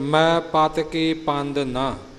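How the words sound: There is a pause after ਨਾ. The speaker calls it right. "ਇੱਥੇ ਵਿਸ਼ਰਾਮ ਹੈ"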